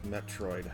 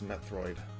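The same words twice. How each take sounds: First: The middle consonant is a plain t sound. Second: The middle consonant is a th sound. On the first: The speaker calls it wrong. "It's not actually uh" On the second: The speaker calls it right. "It's a th sound instead of a an actual T"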